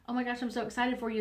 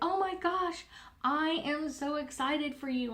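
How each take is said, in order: First: It is said flatly, without intonation. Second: It is said with excited, lively intonation.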